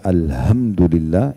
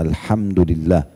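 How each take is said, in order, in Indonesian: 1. Bunyi h-nya biasa saja. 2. Bunyi h diucapkan dengan hembusan udara. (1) "kalau Bapak Ibu ganti menjadi ha" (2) "Ha itu sedikit ada angin dari mulut ya"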